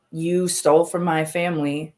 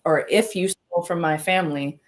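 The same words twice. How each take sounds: First: Said in the usual way. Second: "if" leaned on as a pointed correction; stress on if. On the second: Real, not acted. Streamer fixing her accusation, hitting "if".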